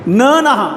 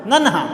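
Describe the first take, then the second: First: नन्हा broken into न नहा; wrong split pronunciation. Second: नन्हा with न joined, नन्-हा; correct pronunciation. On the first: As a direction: say न, pause, then नहा. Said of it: "ऐसे थोड़े बोलेंगे अपन". (नन्हा को न नहा बोलकर गलत उच्चारण) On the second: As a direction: say नन्हा as one flow, नन्-हा. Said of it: "इस न को और इसको साथ में बोलते हैं". (नन्हा का सही उच्चारण) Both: Shown as a demonstration.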